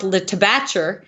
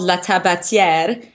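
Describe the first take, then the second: First: The name is said with English-style pronunciation. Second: The name is said with French pronunciation. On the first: "but it's pronounced Le Tabatcher" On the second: "which is a French word"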